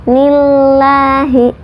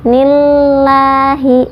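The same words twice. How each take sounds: No difference in how they are said.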